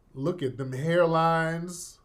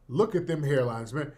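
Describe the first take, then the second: First: Slow, drawn-out "look at them hairlines" with weight on "hairlines"; emphatic retort. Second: Said in the usual way. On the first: Retold or imitated. Telling viewers to study the suspects' photo, slow emphatic "hairlines". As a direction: lean slowly on "hairlines". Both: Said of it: "I said".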